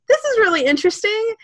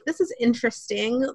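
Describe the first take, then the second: First: It sounds warm and genuinely enthusiastic. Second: It sounds doubtful and critical, not enthusiastic.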